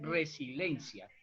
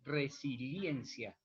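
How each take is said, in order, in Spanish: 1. El sonido de la i en el medio se omite. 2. El sonido de la i en el medio se pronuncia claramente. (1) "sino que se pronuncia de resiliencia" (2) "uno no lo escucha así acentuadamente"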